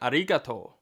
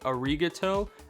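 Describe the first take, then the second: First: The middle consonant is between r and l. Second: The middle consonant is an English r. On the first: The speaker calls it right. "sort of between an R and an L" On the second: The speaker calls it wrong. "words I thought used an R sound"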